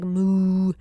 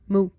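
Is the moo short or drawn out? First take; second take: drawn out; short. First: The moo is long and drawn out. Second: The moo is short and clipped.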